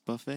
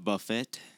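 First: The final T sound is left silent. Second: The final T sound is pronounced. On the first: The speaker calls it right. "It's buffet" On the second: The speaker calls it wrong. "It's not buffet"

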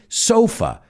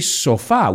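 First: The word is pronounced the English way. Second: The word is pronounced the Spanish way. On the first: The speaker calls it right. "we say sofa" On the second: The speaker calls it wrong. "we don't say sofá"

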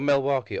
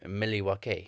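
First: The word is pronounced the ordinary, everyday way. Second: The word is pronounced in an unusual, imitated way.

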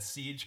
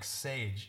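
First: The vowel sounds like the 'ee' in 'siege'. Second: The vowel sounds like the 'a' in 'sage'. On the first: The speaker calls it right. "you said Siege correctly" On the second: The speaker calls it wrong. "you just decide that you're going to say, like, Sage"

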